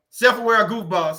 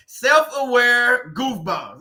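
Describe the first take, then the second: First: Said in the usual way. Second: Drawn out, savoring. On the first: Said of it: "Alan B just said it". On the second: Shown as a demonstration. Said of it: "That's a good one".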